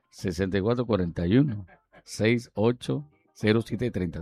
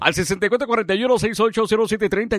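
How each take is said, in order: First: It is said slowly. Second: It is said fast.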